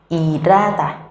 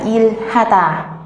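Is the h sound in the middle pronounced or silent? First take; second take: silent; pronounced. First: The h sound in the middle is silent. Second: The h sound in the middle is clearly pronounced. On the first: "chữ h sẽ trở thành âm câm" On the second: "về quy tắc bình thường chúng ta sẽ đọc là il-hata"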